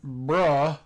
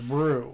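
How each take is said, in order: First: The vowel is a short 'uh' sound. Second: The vowel is a long 'oo' sound. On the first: The speaker calls it wrong. "I was pronouncing it bruh" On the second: The speaker calls it right. "they said it was brew"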